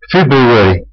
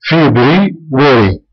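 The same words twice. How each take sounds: First: Said in the usual way. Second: فبراير said very slowly, syllable by syllable; slow, careful teacher model of فبراير; slow teaching demo. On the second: Shown as a demonstration. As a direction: spell out فبراير slowly for learners. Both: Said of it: "آخر كلمة هي كلمة واري".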